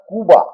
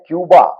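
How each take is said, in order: First: The first syllable has no y-glide, 'koo'. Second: The first syllable has a y-glide, 'kyoo'. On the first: The speaker calls it right. "उसका जो सही उच्चारण है वो है कूबा" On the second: The speaker calls it wrong. "हमारे उच्चारण में जिसको हम क्यूबा कहते हैं, वो वस्तुतः यह उच्चारण नहीं है, ये दोष है"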